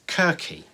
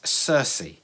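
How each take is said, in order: First: The name begins with a hard K sound. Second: The name begins with a soft S sound. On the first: This is the pronunciation some classicists use. "Some classicists may refer to this as Kirky" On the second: This is the accepted everyday pronunciation. "I am assured that it's Circe"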